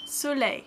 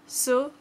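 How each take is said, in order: First: Soleil said soo-LAY with a falling close; soleil, slow teacher model; French soleil. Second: Soleil repeated with a rising tune; French soleil. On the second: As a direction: soleil again, soo-LAY lifting at the end. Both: Shown as a demonstration. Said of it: "Let's try it".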